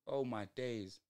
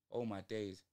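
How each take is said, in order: Both takes have the same delivery.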